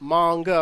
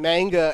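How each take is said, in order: First: The first vowel is long. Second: The first vowel is short. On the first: The speaker calls it right. "It's manga" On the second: The speaker calls it wrong. "I remember I used to say anime and manga and people would give me shit"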